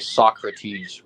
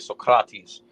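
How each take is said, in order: First: It is said with an English accent. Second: It is said with a Greek accent and rolled R. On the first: The speaker calls it wrong. "we'll say Socrates" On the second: The speaker calls it right. "a Greek person would actually say Socrates"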